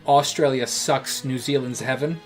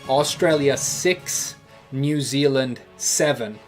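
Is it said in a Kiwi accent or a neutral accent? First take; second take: Kiwi; neutral. First: It is said in an imitated New Zealand accent. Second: It is said in the speaker's ordinary accent.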